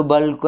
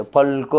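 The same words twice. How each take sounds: First: "బల్కు" opening on a voiced b; softened B pronunciation. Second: "పల్కు" opening on a hard p; unvoiced P pronunciation. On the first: Teacher showing how people casually say it, "బల్కు" with b. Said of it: "అనేస్తాడు". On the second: Teacher showing what people don't say, "పల్కు" with p. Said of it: "అనరు". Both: Shown as a demonstration.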